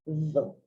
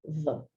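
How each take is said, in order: Both takes have the same delivery.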